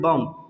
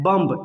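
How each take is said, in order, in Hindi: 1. शब्द का अंत बिना किसी 'b' ध्वनि के होता है। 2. शब्द का अंत एक सुनाई देने वाली 'b' ध्वनि से होता है। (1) "लेकिन इसको पढ़ेंगे बम" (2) "इसको क्या पढ़ते हैं?"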